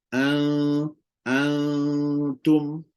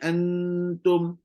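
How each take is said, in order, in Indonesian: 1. Nun-nya tersembunyi, lidah mengambang. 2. Nun-nya jelas, ujung lidah menyentuh. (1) "apungkan lidah. Jangan sentuh lagi" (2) "bila dia sentuh je antum, itu adalah huruf yang izhar, bukan ikhfa"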